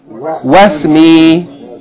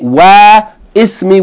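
First: The i vowel before the s is dropped. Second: The i vowel before the s is pronounced. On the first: The speaker calls it right. "we just say wasmi" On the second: The speaker calls it wrong. "We don't say wa ismi"

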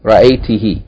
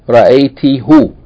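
First: The final pronoun ends in an 'ee' vowel. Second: The final pronoun ends in an 'oo' vowel. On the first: The speaker calls it right. "So they changed the hu to he" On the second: The speaker calls it wrong. "the Arabs didn't like to say ra'ayti-hu"

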